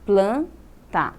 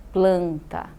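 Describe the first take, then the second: First: "planta" as plan, pause, ta; split into syllables. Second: Said in the usual way. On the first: Shown as a demonstration. Teacher dividing words for pupils, "planta" syllable by syllable. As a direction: break "planta" into two separate syllables. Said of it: "dividi-las em sílabas". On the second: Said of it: "vamos pegar essas três palavras".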